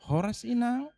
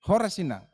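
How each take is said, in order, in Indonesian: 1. Sapaannya terdengar lembut dan ramah. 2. Sapaannya terdengar ketus dan tidak ramah. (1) "Nyanyian suara itu beda itu yang suaranya enak" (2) "Tapi ada keluarga-keluarga Kristen yang demikian"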